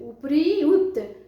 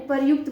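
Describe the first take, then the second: First: It is said slowly, broken into separate parts. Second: It is said quickly as one joined word. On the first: "मुख से कैसे खंडित होकर के बाहर आता है शब्द अलग अलग" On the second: "हम आसानी से उच्चारण कर लेते हैं, मुख से शब्द बाहर आ जाता है जल्दी से"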